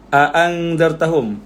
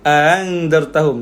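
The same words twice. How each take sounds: First: Both glottal stops are pronounced fully and separately. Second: The second glottal stop is softened and eased. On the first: This is the form some Arabs found too hard to say. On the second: This is the easier reading those Arabs used instead. "dia punya qiraat dia baca"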